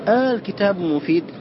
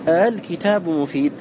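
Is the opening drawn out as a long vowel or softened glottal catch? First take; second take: long vowel; softened catch. First: The opening vowel is a long drawn-out aa. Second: The opening has a softened catch between glottal and vowel. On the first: "الأول إبدال همزة الوصل ألفا" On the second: "والوجه الآخر التسهيل، وهو أن ينطق بها بين الهمزة والألف"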